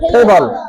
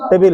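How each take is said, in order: First: The word has an English-style pronunciation. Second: The word has a Bangla-style pronunciation. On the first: This is how it should be read from now on. The speaker calls it right. "এখন হবে টেবল" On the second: This is how it was read until now. The speaker calls it wrong. "এতদিন কি পড়ছি?"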